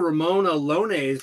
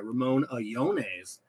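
First: The L in Alones sounds like an L. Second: The L in Alones sounds like a Y.

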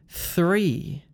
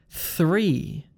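No difference in how they are said.

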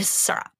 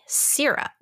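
First: The first vowel is an ur sound. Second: The first vowel is a short i sound. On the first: The speaker calls it wrong. "It's not S-U-R-U-P" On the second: The speaker calls it right. "It's Y"

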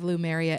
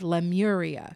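First: The name begins with 'Lum' followed by 'eria'. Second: The name begins with 'Lem' followed by 'uria'. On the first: The speaker calls it wrong. "It is not the lost city of Lumeria" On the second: The speaker calls it right. "It's the lost city of Lemuria"

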